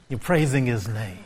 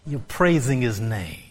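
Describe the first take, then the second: No difference in how they are said.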